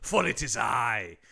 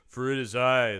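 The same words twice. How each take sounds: First: It is said in a put-on accent. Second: It is said in a normal accent.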